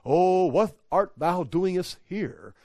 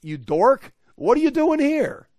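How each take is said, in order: First: Slow, lofty King James parody; mock-solemn archaic voice. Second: Loud, high-pitched exasperated scolding; exasperated paraphrase. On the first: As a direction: draw it out with pompous reverence. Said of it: "It's not like". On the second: Acted. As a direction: shoot up high in disbelief at the dork. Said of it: "If I could paraphrase".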